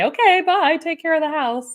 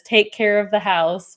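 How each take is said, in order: First: Much higher, louder sing-song farewell; a bright, high farewell to the bird; cheery goodbye. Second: Said in the usual way. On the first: Retold or imitated. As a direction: wave someone off brightly. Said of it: "I say". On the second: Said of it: "M says".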